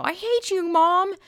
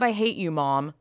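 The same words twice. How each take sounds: First: Put-on high, whiny teenager yelling at mom; bratty teen. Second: Said in the usual way. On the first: Mocking an angsty teen yelling I hate you at mom. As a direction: mimic a sulky kid screaming at her mother.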